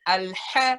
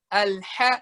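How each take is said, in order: No difference in how they are said.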